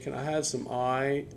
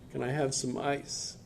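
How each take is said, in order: First: Ice is said with a changed, local-sounding pronunciation. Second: Ice is said with an ordinary standard pronunciation. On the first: The locals understood the request. "he changed his pronunciation and said" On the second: The locals did not understand the request. "he was asking for ice"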